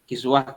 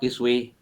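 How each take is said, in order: First: The final vowel is an open a sound. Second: The final vowel is bent toward an e sound.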